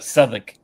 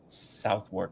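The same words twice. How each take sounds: First: The name is said short, like 'Suth-uck'. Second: The name is said as spelled, like 'South-work'. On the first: The speaker calls it right. "It's pronounced Southwark. ... not south, ... and then not work" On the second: The speaker calls it wrong. "so I know Southwark is not correct"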